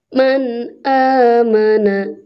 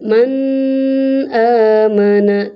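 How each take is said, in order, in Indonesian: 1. Bunyi n diucapkan dengan jelas dan tegas. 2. Bunyi n kabur, tidak terpisah dengan jelas. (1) "tapi jelas"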